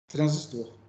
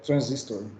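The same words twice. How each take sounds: First: It is pronounced the Portuguese way. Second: It is pronounced the English way. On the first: "se a gente fosse pronunciar em português mesmo, seria transistor" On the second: "se fosse em inglês seria transistor"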